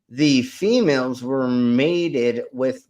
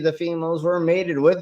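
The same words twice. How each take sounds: First: The phrase is said more slowly. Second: The phrase is said at a normal pace.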